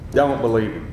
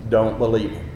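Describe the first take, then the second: No difference in how they are said.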